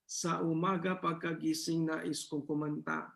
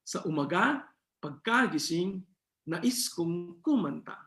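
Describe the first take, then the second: First: Sa umaga pagkagising nais kong kumanta with every syllable at the same level, no accents; flat robotic delivery. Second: Sa umaga pagkagising nais kong kumanta with the accents on the wrong syllables, slowing at the end; wrong stress. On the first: Teacher showing students a flat delivery with no accents, robot-like. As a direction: say it evenly like a robot. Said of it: "Parang, parang robot". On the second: Teacher showing students how misplaced stress sounds wrong. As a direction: push the wrong syllables of each word. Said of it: "Hindi maganda, hindi tama".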